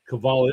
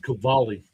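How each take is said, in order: First: The name does not start with a K sound. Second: The name starts with a hard K sound. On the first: The speaker calls it wrong. "I keep saying it wrong" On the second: The speaker calls it right. "like K, but it's spelled with a C"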